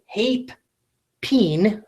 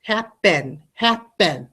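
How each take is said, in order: First: "hape, peen" with long A and long E, as two separate words; deliberately wrong vowels. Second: "happen" split evenly as HAP, PEN; two-syllable demo. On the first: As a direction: mispronounce happen as "hape, peen", pausing between. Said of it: "'Cause I don't say". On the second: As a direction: say "happen" in two distinct beats, both vowels short. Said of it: "It should be two". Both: Shown as a demonstration.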